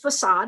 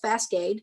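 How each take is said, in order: First: The word is said without a k sound. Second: The word is said with a k sound. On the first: The speaker calls it right. "it was facade" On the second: The speaker calls it wrong. "I said it as Fascade"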